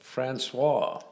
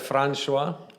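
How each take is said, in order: First: The name is said with an American pronunciation. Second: The name is said with an Afrikaans pronunciation. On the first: "if you tell an American your name is Francois, they've got no idea. So you have to go like Francois" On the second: "in Afrikaans, I guess people say Francois"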